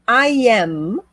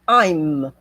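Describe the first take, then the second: First: Both words are said separately in full. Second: The words merge into one short syllable. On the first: "essa aqui é a forma completa" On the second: "a forma contraída"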